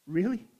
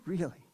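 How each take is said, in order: First: REALLY with a rising, questioning tune; "Really" lifted into a question. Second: REALLY with a falling, settled tune; "Really" said softly as a statement; confirming. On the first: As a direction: ask "Really" as a tentative question, pitch lifting at the end. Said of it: "And he said". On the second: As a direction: answer "Really" as a quiet confirmation, pitch dropping at the end. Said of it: "I said". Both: Retold or imitated.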